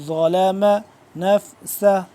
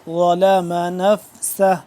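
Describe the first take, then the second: The two takes are said the same way.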